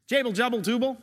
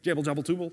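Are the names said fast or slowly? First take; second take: slowly; fast. First: The names are said at a normal, slower pace. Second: The names are said very fast.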